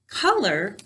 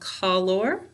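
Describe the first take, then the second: First: Both vowels are reduced, ending in 'er'. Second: Both vowels are full, ending in a clear 'or'. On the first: This is the everyday form used in normal speech. "Color is how we say it when we're talking" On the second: This is the careful form used for spelling. "Color is how we say it to spell it"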